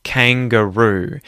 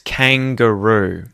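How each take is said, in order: No difference in how they are said.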